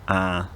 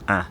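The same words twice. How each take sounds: First: The vowel is held somewhat longer. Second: The vowel is held very briefly.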